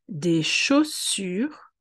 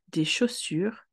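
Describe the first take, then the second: First: The phrase is said at a slow pace. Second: The phrase is said at a fast pace.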